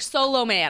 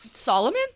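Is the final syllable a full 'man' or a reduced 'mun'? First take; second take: full man; reduced mun. First: The last syllable is a full, clear 'man'. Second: The last syllable is a reduced, weak 'mun'. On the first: Someone else says it this way. "she's like" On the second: The speaker says it this way. "And I'm like"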